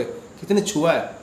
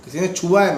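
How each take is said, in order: First: Slow, hushed. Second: Said in the usual way. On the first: Shown as a demonstration. Guru recalling the felt touch, slow and hushed. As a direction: let "किसी ने छुआ है" linger slowly, hushed.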